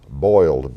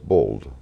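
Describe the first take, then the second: First: The vowel is a gliding 'oy' sound. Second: The vowel is a plain 'oh' sound.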